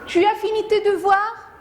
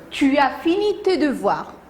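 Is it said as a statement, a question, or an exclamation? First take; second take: question; statement. First: It is said as a question. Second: It is said as a plain statement.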